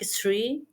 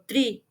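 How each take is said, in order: First: The word begins with an s sound. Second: The word begins with a t sound. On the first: "the sound with S or T" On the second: "the sound with S or T"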